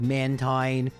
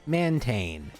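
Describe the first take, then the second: First: The second syllable has an 'eye' vowel. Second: The second syllable has an 'ay' vowel. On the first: This is how the name was intended to sound. "they were clearly going for the pronunciation of mantine" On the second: This is how English spelling rules would read it. "if you were to read this in English, it would be mantane"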